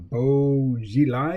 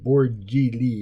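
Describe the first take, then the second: First: The name is read as spelled: Bo Xilai. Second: The name sounds like Borgi Lee. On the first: This is a reading from the romanized spelling. "is how I would pronounce that" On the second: This imitates how someone else said it. "Adam Curtis was pronouncing it like"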